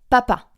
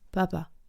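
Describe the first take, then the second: First: The p sounds burst out sharply and strongly. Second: The p sounds are soft with little burst. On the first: The speaker calls it right. "Quelque chose comme si ça explosait le p" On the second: The speaker calls it wrong. "c'est pas explosif"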